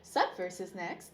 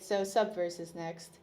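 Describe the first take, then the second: First: It is said brightly, with enthusiasm. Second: It is said reluctantly, with dread.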